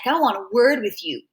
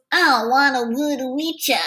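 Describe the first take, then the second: First: Said in the usual way. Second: Dumb slurred talk. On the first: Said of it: "Only the way he talks". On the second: A narrator's reading. Bully stops the kids for a word, dumb slurred talk. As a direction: run the words together like a dim thug. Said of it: "the dumb way he talks".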